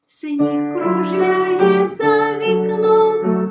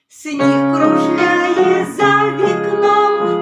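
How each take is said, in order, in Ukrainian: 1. Сказано м'яко й тихо. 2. Сказано голосно й повно. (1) "А тепер тихенько" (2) "давайте голосніше"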